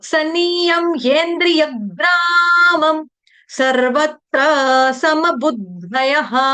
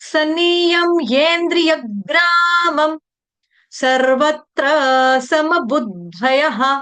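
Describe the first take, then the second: The two takes are said the same way.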